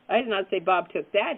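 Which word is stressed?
that. The stress is on the word that.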